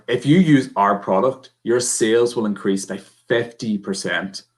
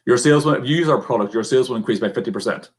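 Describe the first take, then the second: First: Unhurried, giving the key figure weight; slow down and let the message land; slow with inflection. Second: Hurried run-through, tailing off on one level; really fast, no inflection. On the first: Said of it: "Turn around". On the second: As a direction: race through it without emphasis. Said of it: "no inflection in my voice, really fast". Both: Shown as a demonstration.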